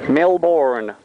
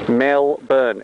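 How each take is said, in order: First: The R in the second syllable is pronounced. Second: The R in the second syllable is dropped. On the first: The speaker is a tourist. The speaker calls it wrong. "it is not pronounced Melbourne" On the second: The speaker is a local. The speaker calls it right. "It's Melbourne"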